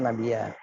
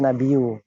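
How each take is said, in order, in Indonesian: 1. Kata ini diakhiri dengan vokal 'a'. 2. Kata ini diakhiri dengan vokal 'u'. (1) "tapi yang benar Nabiya" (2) "tadi juga antum baca Nabiyu ya"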